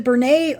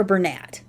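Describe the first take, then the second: First: "Bernay" ending in an AY vowel, T silent; pronunciation variant. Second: "Bernat" ending in a sounded T; pronunciation variant. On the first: Vlogger unsure of the brand name, "Bernay" with silent T. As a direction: say "Bernay" to rhyme with day. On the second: Vlogger offers the other reading, "Bernat" with final T sounded. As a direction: say "Bernat" to rhyme with cat. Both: Shown as a demonstration. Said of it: "I've heard it pronounced both ways".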